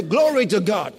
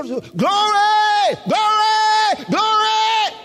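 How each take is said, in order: First: Said in the usual way. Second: High, loud, drawn-out cries of glory; shouting. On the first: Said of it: "that's different from when we say". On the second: Shown as a demonstration. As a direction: burst into repeated slow shouts of praise. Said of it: "why are they shouting?".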